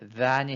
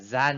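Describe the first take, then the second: First: It starts with a voiced th, tongue between teeth. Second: It starts with a buzzing z sound. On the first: "혀끝을 윗니와 아랫니로 the, 물고 발음을 than이 해야 되는데" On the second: "그렇게 하는 것이 아니라 than이 이렇게 하는 거죠"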